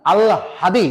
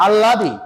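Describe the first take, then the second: First: আল হাদি with h after l; correct pronunciation. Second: আল্লাদি with a double l, no h; students' mispronunciation. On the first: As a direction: say "al-hadi" for আল হাদি. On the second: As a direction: say আল্লাদি as "alladi". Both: Shown as a demonstration. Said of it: "No, আল্লাদি না".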